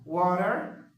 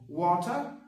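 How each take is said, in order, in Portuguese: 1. O R final é fortemente pronunciado. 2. O R final não é pronunciado. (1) "American, com esse R um pouquinho mais puxado" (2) "britânico"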